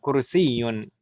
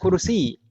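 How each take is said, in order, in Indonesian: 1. Kata ini berakhir dengan akhiran -yun yang lengkap. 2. Kata ini berakhir tanpa vokal akhir. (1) "kursiyun itu kalau kita baca lengkap harokatnya" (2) "Karena disukunkan huruf terakhirnya"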